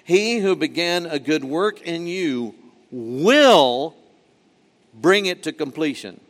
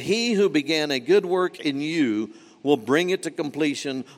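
First: The word "will" carries strong emphasis. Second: It is read evenly with no word singled out.

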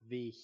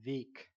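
First: The final g is softened toward an h sound. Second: The final g is pronounced clearly and hard. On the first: This is relaxed, informal speech. "if you verschleifen this" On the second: This is careful standard speech. "in standard German"

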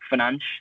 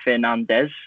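First: The ending is softened to a 'che' sound. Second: Three clear syllables, ending in a full 'des'. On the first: "in Portuguese, they pronounce the Fernandes as like Fernanche" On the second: "as English speakers, we're tempted to say as in Fernandes, as in like a three-syllable word"

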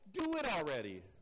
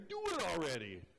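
First: It is said in a plain, neutral accent. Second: It is said in a New York accent.

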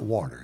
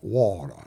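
First: It is said in a standard accent. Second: It is said in a New Orleans accent. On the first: "not water" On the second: "New Orleans has a unique dialect. ... they call water"

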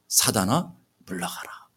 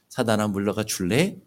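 First: It is said firmly and commandingly. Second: It is said timidly, as a soft request.

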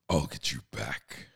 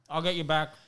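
First: It is said in a Doctor Claw voice. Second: It is said in a normal voice.

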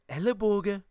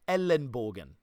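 First: It is said in a regional dialect intonation. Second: It is said in standard German pronunciation. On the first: "they even say it with that weird intonation" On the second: "An elbow in German is Ellenbogen"

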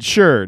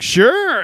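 First: It is said flatly, without excitement. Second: It is said with lively excitement.

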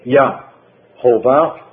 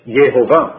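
First: The first syllable has an 'ah' vowel. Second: The first syllable has an 'eh' vowel. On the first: The speaker calls it wrong. "In Hebrew you cannot say Yahovah" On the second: The speaker calls it right. "It's Yehovah"

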